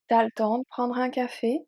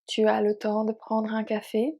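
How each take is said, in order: First: Tu is shortened to t', le stays full. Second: Tu and le are both said in full. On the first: "We are going to use T apostrophe instead of tu"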